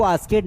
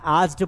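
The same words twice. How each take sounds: First: आस्केड with an extra "ked" syllable; wrong pronunciation. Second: आस्क्ड in one syllable, "askt"; no vowel before the final t in आस्क्ड; correct pronunciation. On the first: Teacher shows students the common error, आस्केड mispronounced with a voweled -ed. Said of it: "इसको आस्केड नहीं पढ़ना है". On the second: Teacher gives students the right reading, आस्क्ड said as one-syllable "ast". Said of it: "आस्क्ड पढ़ना है". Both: Shown as a demonstration.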